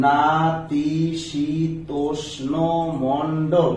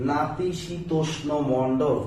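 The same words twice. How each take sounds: First: নাতিশীতোষ্ণ spoken very slowly, then মণ্ডল; teacher sounding out নাতিশীতোষ্ণ মণ্ডল; slow syllable demo. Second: নাতিশীতোষ্ণ মণ্ডল drawn out syllable by syllable; slow careful pronunciation. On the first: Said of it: "আমার উচ্চারণে আসে". (ধীর উচ্চারণে দেখানো) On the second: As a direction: stretch out নাতিশীতোষ্ণ slowly for the class. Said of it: "দেখেন". (ধীরে ধীরে স্পষ্ট উচ্চারণ) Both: Shown as a demonstration.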